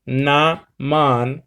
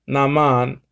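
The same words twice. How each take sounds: First: NAMAN split slowly into na, man; Naman, stretched out for learners; syllable by syllable. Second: Said in the usual way. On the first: Shown as a demonstration. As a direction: sound out Naman in two separate beats. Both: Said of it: "the Greek word for law is naman".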